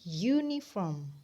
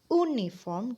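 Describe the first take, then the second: First: The word starts with a Y sound. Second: The word starts with a plain vowel sound. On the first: The speaker calls it right. "Ada Y di situ" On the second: The speaker calls it wrong. "bukan uniform"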